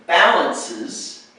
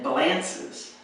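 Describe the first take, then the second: First: Balances slowly, BA stressed; slow correct stress. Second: Balances with the stress moved to LAN; slow balances, weight on LAN; wrong stress. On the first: Teacher contrasts stress in balances for students, slow. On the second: Teacher shows the wrong stress on balances for students. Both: Shown as a demonstration. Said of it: "is a different word".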